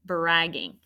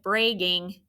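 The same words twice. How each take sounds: First: Said in the usual way. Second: "bragging" with a long A, like "bray-ging"; long-A mispronunciation. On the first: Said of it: "You have to double that consonant". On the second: Shown as a demonstration. Teacher warning about an undoubled consonant, "bragging" wrongly said "bray-ging". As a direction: turn the short a in "bragging" into "ay". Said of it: "I don't want it to look like".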